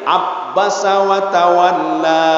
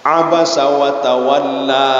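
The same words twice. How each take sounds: First: The b sound is held and doubled. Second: The b sound is short and single.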